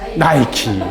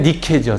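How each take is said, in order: First: The name is said as two syllables, 'nai-ki'. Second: The name is said as two syllables, 'ni-ke'. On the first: This is the English-style pronunciation. "그 영어식 발음으로 나이키인 거예요" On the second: This is the original Greek form. "원래 니케죠"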